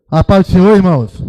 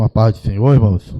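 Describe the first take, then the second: First: Loud, high call to the congregation; raised-voice church greeting, falling at the end; rousing greeting. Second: Said in the usual way. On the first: Real, not acted. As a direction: call out the greeting to get a stronger response. Repeats greeting to rouse a weak congregation.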